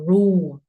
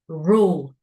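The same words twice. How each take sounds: First: The word ends without a clear L sound. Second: The word ends with a clear L sound. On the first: The speaker calls it wrong. "We don't say r- row or rule" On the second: The speaker calls it right. "this is U and L"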